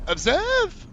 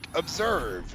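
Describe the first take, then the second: First: The pitch rises upward at the end. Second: The pitch stays level or falls at the end. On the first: The speaker calls it wrong. "upward inflections that she does that's annoying to me" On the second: The speaker calls it right. "Instead of saying, like"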